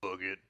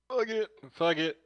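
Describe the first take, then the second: First: Said in the usual way. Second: Much higher, playful fuck it; sing-song "Fuck it." pitched way up; high mock motto. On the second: Shown as a demonstration. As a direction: toss off "Fuck it." high like a catchphrase. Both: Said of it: "That'll be my motto for the day".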